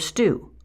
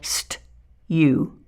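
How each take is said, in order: First: The oo vowel has no y sound before it. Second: A y sound comes before the oo vowel. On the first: The speaker calls it right. "the U sound for brew or stew" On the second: The speaker calls it wrong. "as they try to force out that U sound"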